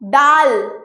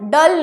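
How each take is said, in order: First: The vowel is long and open, like daal. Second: The vowel is short and clipped, like dul. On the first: The speaker calls it right. "टिंडाल। डाल।" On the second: The speaker calls it wrong. "डल नहीं"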